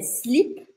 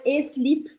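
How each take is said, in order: First: The word begins directly with the s. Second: A vowel sound comes before the s. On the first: The speaker calls it right. "Começa o som no S" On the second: The speaker calls it wrong. "Não é e-slip"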